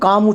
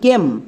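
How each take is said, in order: First: The vowel sounds like 'a' in 'father'. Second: The vowel sounds like 'ay' in 'day'. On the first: The speaker calls it wrong. "একে আমরা ভুল করেও কাম উচ্চারণ করব না" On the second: The speaker calls it right. "আমরা উচ্চারণ করব কেম"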